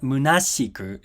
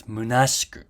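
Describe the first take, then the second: First: "munashiku" with a full ee vowel after sh; "munashiku" with the i clearly sounded; voiced shi. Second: "munashiku" with the i after sh silent; "munashiku" with sh running straight into ku; unvoiced sh. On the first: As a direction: pronounce "munashiku" as moo-nah-SHEE-koo. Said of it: "It's not munashiku". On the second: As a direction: pronounce "munashiku" as moo-NAHSH-koo. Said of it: "it's munashiku". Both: Shown as a demonstration.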